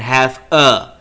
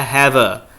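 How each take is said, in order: First: The two words are said separately, not linked. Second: The two words are linked together smoothly. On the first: The speaker calls it wrong. "jangan have a" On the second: The speaker calls it right. "Ini saya mau Anda untuk linking ya"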